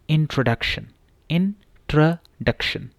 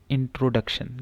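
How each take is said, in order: First: इंट्रोडक्शन with a short "truh", not "tro"; correct pronunciation. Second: इंट्रोडक्शन with a long "tro"; common mispronunciation. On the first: Teacher demonstrating the short vowel to students, slowly. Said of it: "ट्रो नहीं है, ट्र है". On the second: Teacher showing the common misreading. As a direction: read इंट्रोडक्शन the way people usually say it. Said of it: "commonly mispronounced word". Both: Shown as a demonstration.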